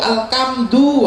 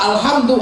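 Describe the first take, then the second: First: The word is said in a Javanese accent with k. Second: The word is said plainly with an h sound.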